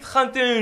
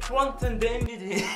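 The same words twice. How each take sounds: First: It is said with a French accent. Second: It is said with an English accent.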